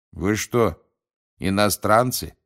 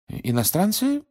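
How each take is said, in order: First: Blunt, inquisitive question, falling at the end; curious gatekeeper. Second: High, bewildered rising question; confused echo. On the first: The gatekeeper questions Mr Weasley, bluntly curious. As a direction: ask outright, with curiosity. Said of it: "поинтересовался привратник у мистера Уизли". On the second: Mr Weasley repeats the gatekeeper's question, bewildered. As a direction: echo it back, pitch shooting up in confusion. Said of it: "в замешательстве переспросил мистер Уизли". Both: A narrator's reading.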